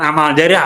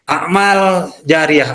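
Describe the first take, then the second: First: It is pronounced the everyday Indonesian way. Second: It is pronounced the original Arabic way. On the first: It names a single good deed whose reward continues. The speaker calls it wrong. "bukan amal jariah, amal jariah itu sudah jadi bahasa Indonesia" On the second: It names many good deeds whose reward keeps flowing. The speaker calls it right. "Yang betul amal jariah"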